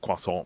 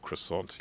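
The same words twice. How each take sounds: First: It is said with a French pronunciation. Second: It is said with an English pronunciation. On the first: "where we should say a croissant" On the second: "we sort of say cro- croissant"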